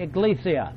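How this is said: The consonant after the first vowel is a G sound. This is how Latin-language speakers say it. "they give it a G sound"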